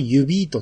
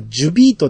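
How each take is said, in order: First: The name begins with a 'y' sound. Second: The name begins with a 'j' sound. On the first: "これをユビートって読むと" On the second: "前はジュビートって僕らは呼んでたんですけど"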